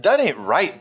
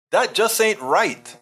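First: Said in the usual way. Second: Higher, slow, drawn-out "That just ain't right"; emphatic scolding. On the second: Real, not acted. Host reproaching a viewer for name-calling, slow emphatic voice. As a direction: lean hard on "That" and stretch the whole line.

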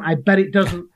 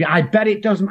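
First: Higher, smug put-on voice for "I bet it doesn't"; mock doubter voice. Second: Mocking doubter. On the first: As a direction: ham up the know-it-all again. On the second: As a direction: sneer it like a know-it-all. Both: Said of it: "people go".

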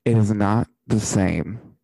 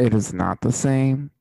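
First: Slow and loud, every word weighted; emphatic. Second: Loud, firm restatement; emphatic repeat. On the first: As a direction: hammer home "It is not the same". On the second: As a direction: say it again, louder and firmer. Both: Real, not acted.

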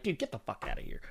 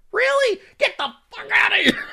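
First: Muted, offhand retort; dismissive retort. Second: Very high squealed protest; high-pitched comic outburst; exasperated mock outrage. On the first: Retold or imitated. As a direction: brush them off quietly and fast. Retold reply to complainers, muttered. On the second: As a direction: squeal it in hammed-up disbelief. Mock outrage at online complaints.

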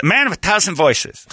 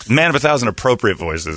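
First: High-pitched mock casino act; seventies comic. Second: Said in the usual way. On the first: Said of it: "as a nineteen seventies comic".

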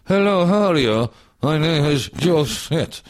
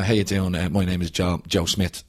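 First: High, slow, stiff overacted line delivery; stilted like a stroke, slowed right down; stiff overacting. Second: Said in the usual way. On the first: Actor retelling his stiff first take, overacted and slow. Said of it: "looked like I'd had a stroke". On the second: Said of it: "say my line was".

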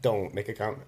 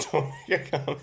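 First: Said in the usual way. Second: Laughing. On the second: Real, not acted. Repeats request while laughing.

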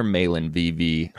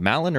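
First: "Malin" with a long a, as in "may"; long-a pronunciation. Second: "Malin" with a short a, as in "cat"; short-a pronunciation. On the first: Host offering another reading of the name, "Malin" said MAY-lin. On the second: Host trying out a gifter's name, "Malin" said MAL-in. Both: Shown as a demonstration. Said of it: "don't wanna get your name wrong".

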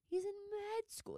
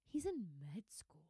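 First: Much higher, incredulous; high mocking disbelief; high exclaim. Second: Whispered aside; hushed whisper. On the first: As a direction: squeal it in disbelief. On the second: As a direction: breathe it as a secret. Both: Shown as a demonstration.

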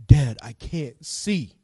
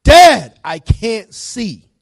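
First: Son's plea retold slowly, without the shout; slow, restrained call to dad. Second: Loud, high opening on Dad, then drawn out; alarmed cry. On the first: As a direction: draw the words out, more contained. Same retold line, said lower. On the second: Retold or imitated. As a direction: cry out to dad like a frightened son. Retold son crying out in emergency.

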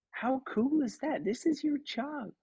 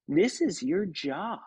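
First: High, gushing impression of a delighted star; delighted Kate McKinnon. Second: Imitating Kate. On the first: Kate McKinnon gushing high and delighted at the new puppeteer. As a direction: gush it high like a thrilled celebrity. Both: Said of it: "and she goes".

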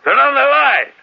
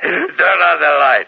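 First: Much higher, loud repeated shout; shouted order. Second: Slow, loud, raised command; loud order. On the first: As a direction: yell it again, impatient. Repeated order, more insistent. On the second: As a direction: call out the order slowly. Dictator orders light after prank. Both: Acted.

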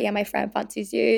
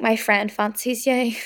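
First: Said in the usual way. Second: Put-on slow Belfast-accented come-on. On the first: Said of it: "Obviously they didn't speak in a Belfast accent". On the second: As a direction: quote him in a Belfast accent. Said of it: "they didn't speak in a Belfast accent".

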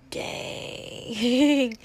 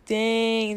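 First: Long drawn-out falling dang; stunned. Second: Said in the usual way. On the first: Retold or imitated. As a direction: let dang sink slowly, amazed. Stunned reaction to drama.

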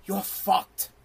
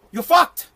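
First: Low, soft and matter-of-fact; blunt line delivered under the breath; understated verdict. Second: "fucked" punched higher in a raised voice; blunt verdict with "fucked" driven home; emphatic verdict. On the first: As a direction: drop the voice for a quiet blunt verdict. Blunt verdict, said twice differently. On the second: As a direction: hit "fucked" hard, lifting the pitch. Same verdict repeated with force. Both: Acted.

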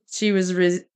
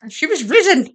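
First: Said in the usual way. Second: High, loud, mock solemn "risen"; mock grand. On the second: Shown as a demonstration. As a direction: say "she was risen" like a grand pronouncement. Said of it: "She had risen".

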